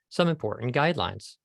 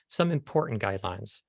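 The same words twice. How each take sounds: First: The stress is on guidelines. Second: The stress is on important.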